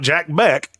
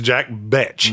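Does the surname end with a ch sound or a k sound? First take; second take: k sound; ch sound. First: The surname ends with a k sound. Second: The surname ends with a ch sound. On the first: The speaker calls it wrong. "It's not Jack Beck" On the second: The speaker calls it right. "It's Jack Betch"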